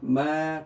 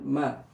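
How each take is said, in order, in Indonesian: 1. Vokalnya dipanjangkan. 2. Vokalnya pendek. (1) "karena ada alifnya" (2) "harusnya kan ma menjadi ma karena ada alifnya"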